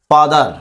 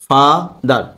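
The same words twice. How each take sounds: First: Said in the usual way. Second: father slowly broken in two, ফা, then দার; split into syllables. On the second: Shown as a demonstration. (Father দুই ভাগে ভেঙে উচ্চারণ) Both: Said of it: "দুইবার ভাগ করা গেছে".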